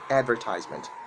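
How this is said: It is said in an American accent. "make sure you put the R sound on it. That's how you sound American"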